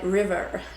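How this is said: It is said in an American accent. "In America, we'll be like"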